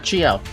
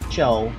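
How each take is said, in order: First: The name is said with two syllables. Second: The name is said with one syllable. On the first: "That's how you pronounce it" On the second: "Try saying Chio in one syllable"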